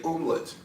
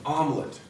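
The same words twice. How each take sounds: First: "omelet" said the mock French way, with a nasal first vowel, quiet; a playful French twist on "omelet". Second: Said in the usual way. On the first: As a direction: put on a French air for "omelet". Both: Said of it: "Or as the French say".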